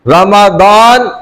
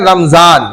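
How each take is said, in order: First: The middle consonant is a d sound. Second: The middle consonant is a z sound. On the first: The speaker calls it right. "असल word Quran ने भी बताया है" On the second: The speaker calls it wrong. "ये गलत word कहते हैं हम"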